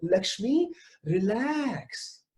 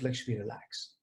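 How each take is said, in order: First: Self talk. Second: Soft and low, Lakshmi, relax, settling down; quietly soothing yourself with your own name; calming self talk. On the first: Acted. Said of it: "I am telling myself". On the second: Shown as a demonstration. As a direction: breathe it out gently, Lakshmi, relax. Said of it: "So I'm telling myself".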